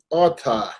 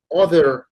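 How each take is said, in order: First: The final r becomes an exaggerated a sound. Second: The ending is said with a plain final r. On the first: "dicen otter" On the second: "en vez de decir other"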